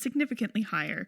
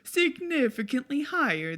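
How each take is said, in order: First: It is spoken in the speaker's ordinary accent. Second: It is spoken with an Italian accent.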